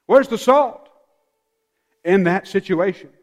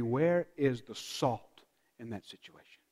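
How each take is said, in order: First: Urgent challenge. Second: Soft, low asking; hushed rhetorical question; quiet musing question. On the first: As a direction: demand it of the congregation. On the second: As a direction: ponder it under your breath. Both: Shown as a demonstration. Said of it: "Our first reaction should be".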